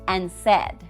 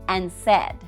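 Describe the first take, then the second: The two takes are said the same way.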